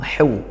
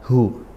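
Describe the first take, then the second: First: The h comes from deep in the throat. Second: The h is a light breathy sound. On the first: The speaker calls it right. "dilatih dari tengah tenggorokan seperti itu" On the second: The speaker calls it wrong. "bukan hu"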